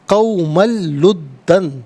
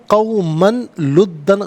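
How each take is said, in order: First: The n sound is merged into the l. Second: The n sound is kept before the l. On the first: The speaker calls it right. "तनवीन को लाम के साथ मिलाकर लाम की आवाज़ को अदा किया जाएगा" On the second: The speaker calls it wrong. "गलत है"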